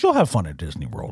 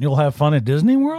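First: It is said as a statement, voice not rising. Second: It is said as a question, voice rising. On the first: It is asserted as fact. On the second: It expresses doubt about having fun.

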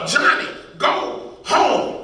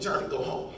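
First: It is said very loudly and forcefully. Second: It is said quietly, in a small voice.

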